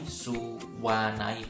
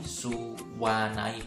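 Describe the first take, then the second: First: A w sound joins the u and a. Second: The same.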